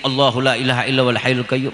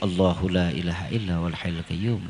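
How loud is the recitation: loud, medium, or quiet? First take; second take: loud; medium. First: It is recited louder still. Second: It is recited a little louder. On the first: "Agak dikencengin" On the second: "Agak kencengin dikit"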